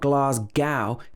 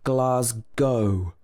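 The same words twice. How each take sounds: First: The word ends in a different vowel. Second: The word ends in an O sound. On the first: The speaker calls it wrong. "It's not Glasgow" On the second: The speaker calls it right. "it should be Glasgow with O at the end"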